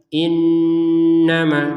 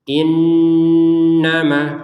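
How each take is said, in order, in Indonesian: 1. Bunyi n ditahan dengan dengung sengau yang panjang. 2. Bunyi n ditahan dengan dengung sengau yang panjang.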